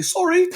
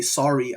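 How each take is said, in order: First: High-pitched mock British accent; badly faked British, pitched way up. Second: Said in the usual way. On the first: Shown as a demonstration. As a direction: put on a squeaky British apology. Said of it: "say it in a British accent". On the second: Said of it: "I wouldn't say".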